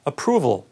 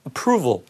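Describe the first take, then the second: Both takes have the same delivery.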